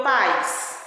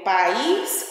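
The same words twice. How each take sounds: First: "país" dito como PAIS, numa sílaba só; tônica no A. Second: "país" em duas sílabas, pa-ÍS; tônica no I. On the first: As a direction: diga "país" com força no A, sem hiato. ("país" pronunciado como "pais", com ditongo) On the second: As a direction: diga "país" com força no I final. ("país" com hiato e I tônico) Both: Shown as a demonstration. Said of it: "Observa bem o acento".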